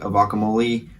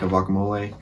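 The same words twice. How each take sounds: First: The vowel is stressed and sounds like E. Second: The vowel sounds like A. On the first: "really emphasize the E" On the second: "make it kind of sound like an A"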